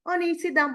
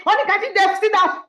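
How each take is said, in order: First: Said in the usual way. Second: Higher and louder, fed-up shout; exasperated yell. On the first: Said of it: "I said". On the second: Retold or imitated. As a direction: finally lose patience and yell it. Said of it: "she did not sit down until I said".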